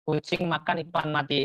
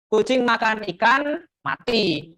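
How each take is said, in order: First: A pause comes after the word makan. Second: A pause comes after the word ikan. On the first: The cat eats a dead fish. The speaker calls it right. "Berarti sudut pandangnya hewan bernama kucing memakan" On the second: The cat died after eating fish. The speaker calls it wrong. "Berarti yang mati siapa? Kucingnya karena setelah makan"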